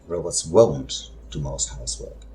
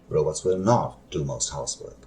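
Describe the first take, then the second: First: Will and not are squeezed into one syllable. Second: Will and not are said as two full words.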